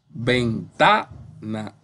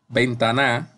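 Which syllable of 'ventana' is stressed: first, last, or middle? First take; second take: middle; last. First: The stress is on the middle syllable. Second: The stress is on the last syllable. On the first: The speaker calls it right. "esa suena bien" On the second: The speaker calls it wrong. "si la pongo en la última, la fuerza"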